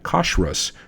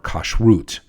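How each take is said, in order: First: It is said in an Eastern European Hebrew style. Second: It is said in a Middle Eastern Hebrew style. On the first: "while I say" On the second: "there are lots of folks who say"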